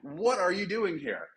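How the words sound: It is said with amazed curiosity.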